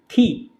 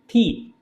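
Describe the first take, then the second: No difference in how they are said.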